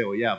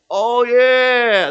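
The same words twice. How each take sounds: First: Said in the usual way. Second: Loud, high, drawn-out stage voice; weird character voice. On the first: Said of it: "I didn't say". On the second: Retold or imitated. Actor remembering his cowboy voice mid-play, loud and high. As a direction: burst back into the cartoonish voice, stretched out. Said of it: "that weird voice that I can't do".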